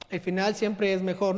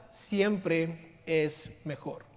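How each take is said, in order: First: Said in the usual way. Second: Siempre es mejor drawn out slowly and softly; slow emphasis. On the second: Shown as a demonstration. Preacher stressing the final truth, slow and soft.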